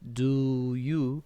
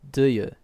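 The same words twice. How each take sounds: First: The two words are said as separate sounds. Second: The two words blend into one sound. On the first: "instead of saying them separately like do you" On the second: "we blend together into one sound"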